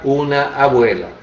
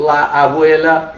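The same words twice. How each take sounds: First: Said in the usual way. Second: La abuela with La drawn out and stressed; slow La abuela, lean on the article La. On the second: Shown as a demonstration. Teacher demonstrates the feminine article to students: stressed La. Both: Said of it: "a gente usa o artigo, ah, feminino".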